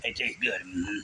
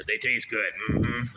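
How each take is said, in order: First: Lower, mumbled simple-man voice; deep slow Sling Blade take. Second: Slow, dull mumble of a simple man; a hint of Sling Blade; lightly voiced Sling Blade drawl. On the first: Retold or imitated. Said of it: "sounding like Sling Blade". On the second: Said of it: "start sounding like Sling Blade".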